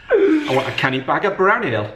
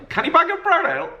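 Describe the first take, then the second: First: A steady Geordie order for brown ale; Geordie accent. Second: Put-on Geordie accent, pitched much higher and rising like a question. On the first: Pretend. Dad orders brown ale in a mock Geordie accent. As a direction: play a Geordie asking at the bar. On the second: Dad repeats the Geordie order as a high, squeaky question. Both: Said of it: "I'm not gonna do my Geordie accent".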